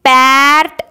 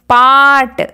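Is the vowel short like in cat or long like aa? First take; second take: short; long. First: The vowel is short, like in cat. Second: The vowel is long, like aa. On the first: The speaker calls it wrong. "हम इसको एम पैट ऐसे नहीं बोल सकते" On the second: The speaker calls it right. "यहाँ पर आ की आवाज आ रही है"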